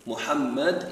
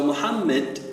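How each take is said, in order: First: Said in the usual way. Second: "Muhammad" pronounced "Muhammid"; changed vowel. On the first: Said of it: "is the one who is often praised". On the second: Shown as a demonstration. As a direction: put an i in the last syllable of "Muhammad". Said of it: "the meaning is different".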